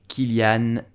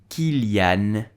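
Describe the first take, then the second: The two takes are said the same way.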